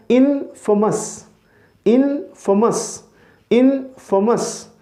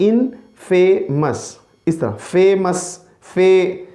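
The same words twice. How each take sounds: First: इनफेमस slowly with a weak middle vowel; teacher's slow इनफेमस; correct pronunciation. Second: इनफेमस with फे like famous, drawn out; the popular फेमस-like इनफेमस; common wrong way. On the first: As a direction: model the right इनफेमस, not famous. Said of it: "किस तरह pronounce करना है". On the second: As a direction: imitate the mistaken इनफेमस. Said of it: "लोग जो है ना pronounce करते हैं". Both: Shown as a demonstration.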